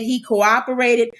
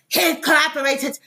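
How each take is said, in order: First: It is said in the speaker's ordinary accent. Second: It is said in an attempted German accent.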